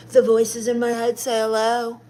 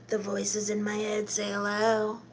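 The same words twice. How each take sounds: First: Said in the usual way. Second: Eerie hush. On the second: Acted. Goth streamer spooking her chat, in a soft eerie hush. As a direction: drop it to a creepy near-hush. Repeats a spooky line, last time.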